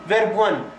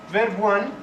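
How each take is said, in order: No difference in how they are said.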